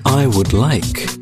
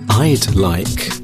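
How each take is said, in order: First: Both words 'I would' are said in full. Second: 'I would' is contracted into one syllable.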